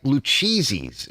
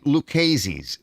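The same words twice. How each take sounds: First: Lucchese's said loo-CHEE-zeez, slowly; Lucchese's with a ch sound; Lucchese's as people misread it. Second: Lucchese's said loo-KAY-zeez; Lucchese's with a hard k sound; Lucchese's read as written; sign spelling. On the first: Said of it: "it looks like Lucchese's". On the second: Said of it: "it says on the sign". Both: Shown as a demonstration.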